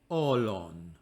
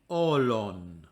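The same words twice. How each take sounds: No difference in how they are said.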